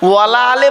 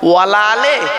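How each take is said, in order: First: Wa and ala merge into one word, wala. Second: The same.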